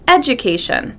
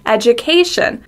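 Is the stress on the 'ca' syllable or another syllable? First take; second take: another syllable; ca syllable. First: The stress is on a different syllable. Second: The stress is on the 'ca' syllable. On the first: The speaker calls it wrong. "people stress a different syllable" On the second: The speaker calls it right. "We stress the A"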